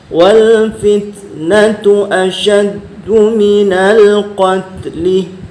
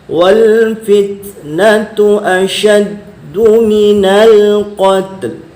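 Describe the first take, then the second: First: The last word ends with a short vowel. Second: The last word ends on a silent consonant. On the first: The speaker calls it wrong. "kalau bacaan yang salah" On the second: The speaker calls it right. "Yang betul yang awal tadi"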